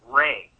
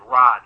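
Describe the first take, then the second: First: The vowel is an ay sound. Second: The vowel is an open ah sound. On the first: This is how the name was said in ancient times. "in ancient times, it would have been pronounced more like Ray" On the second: This is how the name is said today. "we pronounce it Ra now"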